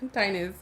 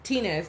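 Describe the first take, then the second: First: The first syllable sounds like 'tie'. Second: The first syllable sounds like 'tee'. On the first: The speaker calls it wrong. "not Tynez" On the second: The speaker calls it right. "is Tinez"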